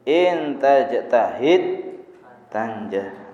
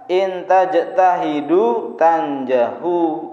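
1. Kedua kata kerja itu berakhir dengan konsonan mati. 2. Kedua kata kerja itu berakhir dengan vokal pendek u. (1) "Yang betul ... akhirnya dua-duanya di sukun" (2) "betul salah? Salah"

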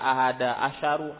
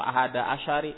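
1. Kata kedua diakhiri dengan vokal u. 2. Kata kedua diakhiri dengan vokal i. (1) "Enggak dibaca" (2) "Enggak dibaca"

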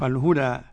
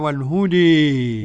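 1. الحركة الأخيرة فتحة 'a' مفتوحة عادية. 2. الحركة الأخيرة مائلة بقوة نحو 'e'. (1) "الفتح إيه؟ يعني المتوسط العربي" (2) "الإمالة"

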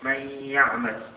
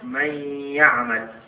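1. تُدغم النون في ياء مشددة مع غنة. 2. تُدغم النون في ياء مشددة مع غنة.

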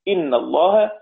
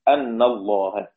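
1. الكلمة الأولى تبدأ بالحركة 'i'. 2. الكلمة الأولى تبدأ بالحركة 'a'. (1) "بكسر الهمزة" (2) "وباقي العشرة بفتحها"

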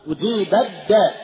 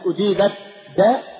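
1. تُدغم التاء تماماً في الدال التي بعدها. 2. تُنطق التاء بوضوح قبل الدال.

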